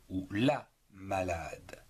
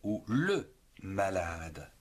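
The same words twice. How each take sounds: First: La malade, stressing la; la malade, appuyé sur la. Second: Le malade, stressing le; le malade, appuyé sur le. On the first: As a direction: lean on the article la. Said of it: "être malade ou la malade". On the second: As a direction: lean on the article le. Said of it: "être malade ou le malade". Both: Shown as a demonstration.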